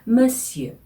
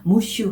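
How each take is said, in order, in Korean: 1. 'muhsyuh'처럼 들려요. 프랑스어 모음처럼 입술을 둥글게 해요. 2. 'mushu'처럼 들려요. 끝은 평범한 'oo'예요. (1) "이렇게 발음하시면 돼요" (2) "무슈 하시지 마시고요"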